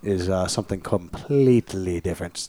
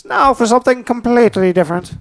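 First: Said in the usual way. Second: High, announcer-style catchphrase; Monty Python announcer. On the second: Shown as a demonstration. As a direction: deliver it like a TV announcer.

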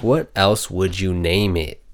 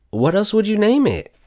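First: Said in the usual way. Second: What else would you name it? asked far higher, in disbelief; squeaky disbelieving what else would you name it; high indignant question. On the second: Real, not acted. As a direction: fling the question up in outrage. Asking indignantly about the rename.

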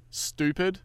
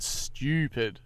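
First: "stupid" said as "stoopid", pitched up; no y-glide in "stupid": "stoopid"; American pronunciation. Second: "stupid" said as "styoopid", drawn out; Australian pronunciation. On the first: Host shows podcasters' Americanised word, "stupid" as "stoopid". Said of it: "are the American pronunciation". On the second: Host shows the expected way, "stupid" as "styoopid". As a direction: put a y-glide into "stupid": "styoopid". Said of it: "assumed that everyone said". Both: Shown as a demonstration.

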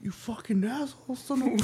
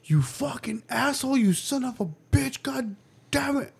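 First: Hushed, high imitation of a cursing child; mock sneaky whispered swearing; retold kid whisper. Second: High-pitched imitation of a swearing child; mock kid tirade, raised pitch; cursing kid. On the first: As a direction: keep cussing, just much quieter. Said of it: "He starts whispering". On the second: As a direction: mimic a kid cussing out siblings, voice up high. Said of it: "I just start hearing".

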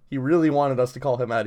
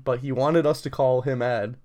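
First: "really" pushed with extra weight, said quickly; stress on really. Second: Said in the usual way. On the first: Real, not acted. Friend retelling the professor's wish, stressing "really". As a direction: lean hard on "really".

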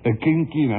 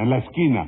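First: "inquina" con "in" inicial, por esquina; repite el error. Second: "esquina" bien dicho, con "es" inicial; palabra corregida. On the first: Retold or imitated. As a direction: repite "inquina" tal como lo dijo el otro. ("inquina" mal dicho, como pregunta) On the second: Acted. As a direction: corrige con "esquina" en forma de pregunta. ("esquina" pronunciado correctamente, con la ese)

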